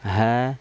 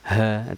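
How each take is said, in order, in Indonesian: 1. Lebih ringan, dihasilkan dari tenggorokan. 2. Berat, didorong dari dada. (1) "tapi cukup dari tenggorokan" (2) "tidak boleh terlampau berat ya, keluarnya dari dada nggak boleh, jangan"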